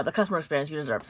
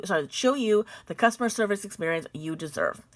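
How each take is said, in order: First: Fast corrected rerun of the phrase; quick rerun. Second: Said in the usual way. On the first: Shown as a demonstration. Reading the company letter to viewers, a quick corrective reread. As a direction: rush through the fixed phrase fast.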